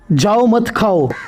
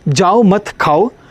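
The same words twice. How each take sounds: First: There is a pause after 'जाओ'. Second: There is a pause after 'मत'. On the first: Leave; don't eat. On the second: Don't leave; eat.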